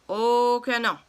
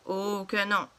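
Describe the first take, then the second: First: A louder, punched "Oh que non"; louder refusal. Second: Said in the usual way. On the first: Acted. Papa escalating the quarrel with the cashier: louder stubborn refusal. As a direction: dig in and raise your voice.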